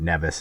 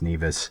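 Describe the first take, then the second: First: The word does not rhyme with Beavis. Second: The word rhymes with Beavis. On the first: The speaker calls it wrong. "It's not Nevis" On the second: The speaker calls it right. "it's Nevis. That's how you pronounce it. Nevis and Butthead"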